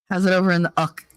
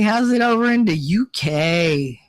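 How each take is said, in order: First: "uck" as one short syllable; "uck" rhyming with duck; playful British accent. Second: "U K" said as two separate letters; playful British accent. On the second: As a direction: spell out "U K" letter by letter, in mock British. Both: Pretend. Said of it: "the British accent".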